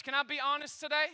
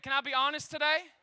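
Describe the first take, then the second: First: Said in the usual way. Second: Louder repeat. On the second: Shown as a demonstration. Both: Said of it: "I said".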